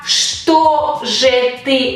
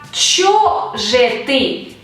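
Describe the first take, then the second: First: The first word is the full form 'chto'. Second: The first word is the reduced form 'cho'. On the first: This is the correct, standard form. The speaker calls it right. "no dice так, что же ты убегал" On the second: This is the colloquial form. The speaker calls it wrong. "dice так, чё же ты"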